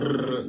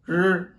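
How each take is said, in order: First: The r is made with a rolled tongue. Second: The r is made without rolling the tongue. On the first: The speaker calls it wrong. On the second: The speaker calls it right.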